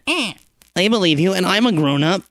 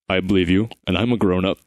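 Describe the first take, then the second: First: It is said in a small, squeaky voice. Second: It is said in a huge, booming, deep voice. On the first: The speaker calls it right. "a small, squeaky voice is good enough" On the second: The speaker calls it wrong. "it must do this huge, booming, deep voice"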